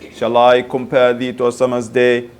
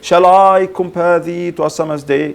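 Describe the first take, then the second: First: The word I is unstressed. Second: The word I is stressed. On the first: "shall I, shall I, unstressed, unstressed" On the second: "Giving emphasis for the pronoun I"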